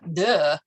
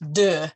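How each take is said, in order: First: It is said like the English word duh. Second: It is said with a French rounded vowel. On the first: The speaker calls it wrong. "not duh" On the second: The speaker calls it right. "deux, not duh"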